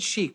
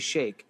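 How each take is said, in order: First: The vowel sounds like the one in 'cheek'. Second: The vowel sounds like the one in 'cake'. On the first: "I always said sheik" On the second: "maybe they were talking about the frozen dairy treat"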